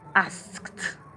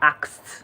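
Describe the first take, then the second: First: The word ends in an 'skt' sound. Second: The word ends in a plain 'ks' sound. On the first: The speaker calls it right. "but it is asked" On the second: The speaker calls it wrong. "most people make the mistake of pronouncing A K S, which is asked"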